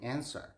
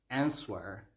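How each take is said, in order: First: The word is said without a w sound. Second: The word is said with a w sound. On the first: The speaker calls it right. "instead of saying answer" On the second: The speaker calls it wrong. "I had been saying answer ... because of that W thing"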